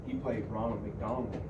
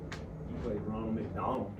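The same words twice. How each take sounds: The two takes are said the same way.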